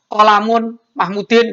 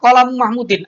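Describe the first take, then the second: First: The first word ends with an n sound. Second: The first word ends without an n sound. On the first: The speaker calls it wrong. "tidak bisa" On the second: The speaker calls it right. "artinya pulpennya Mahmud"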